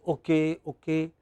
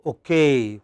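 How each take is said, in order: First: Okay said short and level, both syllables even; Indian-style Okay, no strong final stress; casual Indian okay. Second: OKAY with stress on a long, falling KAY; light o-, drawn-out -KAY in okay; formal okay. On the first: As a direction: toss off Okay as in everyday Indian talk. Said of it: "In India, we often say". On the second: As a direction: lean on the second syllable of okay. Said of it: "it should be". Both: Shown as a demonstration.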